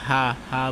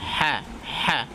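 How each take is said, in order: First: The h sound is light and soft. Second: The h sound is harsh and raspy. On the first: The speaker calls it wrong. "আমরা অনেক সময় ভুল করে হা হা বলি" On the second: The speaker calls it right. "বাতাসটা চালু থাকবে কিন্তু একটু আওয়াজটা একটু কঠিন হবে"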